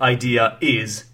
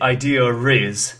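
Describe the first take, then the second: First: No r sound links the two words. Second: An r sound links the two words. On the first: "instead of idea is" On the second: "native speakers basically link ear and is with r sound. So they say idea riz"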